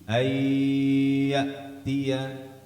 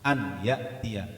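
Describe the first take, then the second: First: The n merges into a nasalized doubled y. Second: The n is pronounced clearly before the y. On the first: "Idgham nunnya dihilangkan menjadi ayyatiya" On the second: "itu izhar namanya karena nunnya dibaca jelas"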